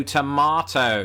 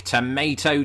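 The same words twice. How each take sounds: First: Drawn-out tomato as "tuh-MAH-toh"; British tomato. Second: Drawn-out tomato as "tuh-MAY-toh"; American tomato. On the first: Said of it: "I say tomato". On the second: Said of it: "You say tomato". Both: Shown as a demonstration.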